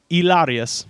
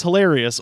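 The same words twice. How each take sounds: First: "hilarious" said as "ilárious", dropped h, Spanish vowels; mock Spanish pronunciation. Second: Said in the usual way. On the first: Shown as a demonstration. Mocking Hilaria's name with a Spanish "hilarious". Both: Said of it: "hilarious or hilarious".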